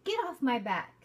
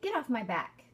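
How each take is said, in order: Both takes have the same delivery.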